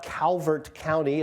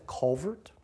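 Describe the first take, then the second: First: Said in the usual way. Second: "Culvert" for Calvert, first vowel darkened; local pronunciation. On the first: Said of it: "everything is contracted to the two easiest syllables". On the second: Shown as a demonstration. Speaker showing how locals name their county, local "Culvert". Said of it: "it's not Calvert County".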